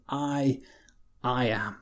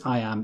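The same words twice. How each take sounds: First: "I, I am" with a pause after the first I; hushed, deliberate "I... I am", each part given weight; doubly emphasized. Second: Said in the usual way. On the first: Shown as a demonstration. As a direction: set "I" apart, then repeat it in "I am", soft and weighty. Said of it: "almost doubly emphasized". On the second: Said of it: "When he says".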